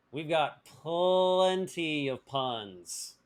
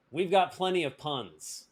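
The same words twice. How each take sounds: First: "plenty" stretched out very slowly; stress on plenty. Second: Said in the usual way. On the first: Real, not acted. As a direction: draw out "plenty" for comic emphasis. Repeats it drawn out for emphasis.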